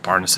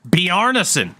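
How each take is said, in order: First: The name is said with plain English sounds. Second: The name is said with Norwegian-style sounds. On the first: The speaker calls it wrong. "I'm going to always just go with Barneson" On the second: The speaker calls it right. "like he's fucking Norwegian"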